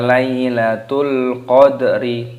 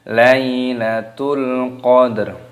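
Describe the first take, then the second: First: The last word ends with an added i vowel. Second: The last word ends on a bare r sound. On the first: The speaker calls it wrong. "Ini bukan dibaca Lailatul Qadri" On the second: The speaker calls it right. "tapi Lailatul Qadr"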